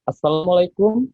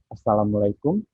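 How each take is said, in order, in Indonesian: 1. Diucapkan dengan nada tinggi. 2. Diucapkan dengan nada tengah. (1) "suara tinggi saya" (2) "ambil tengahnya"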